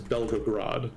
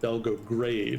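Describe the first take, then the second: First: The name ends with a 'rod' sound. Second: The name ends with a 'grade' sound. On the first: The speaker calls it right. "So I think it is Belgorod" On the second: The speaker calls it wrong. "I've previously mispronounced it Belgograde"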